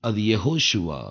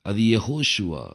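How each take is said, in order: The two takes are said the same way.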